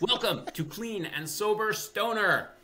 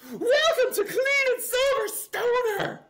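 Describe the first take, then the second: First: It is said more softly, without clipping. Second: It is shouted loudly, clipping the microphone.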